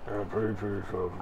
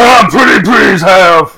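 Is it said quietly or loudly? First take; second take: quietly; loudly. First: It is said quietly. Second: It is said loudly.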